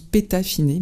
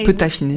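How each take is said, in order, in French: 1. La première voyelle est un 'é' fermé. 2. La première voyelle est un 'eu' arrondi. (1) "moi je le prononce pétaffiné"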